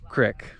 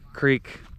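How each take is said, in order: First: It is said with a short 'i' vowel, 'crick'. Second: It is said with a long 'ee' vowel, 'creek'.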